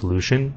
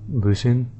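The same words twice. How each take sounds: First: "Lucian" as LOO-shun; stream version. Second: "Lucian" as LOO-see-an; Jagex version. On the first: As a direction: say "Lucian" with a SH sound. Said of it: "people in the live stream were saying". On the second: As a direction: say "Lucian" with a clear S sound. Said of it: "according to Jagex, it's pronounced". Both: Shown as a demonstration.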